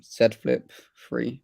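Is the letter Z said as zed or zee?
zed. Z is said the non-American way, as zed.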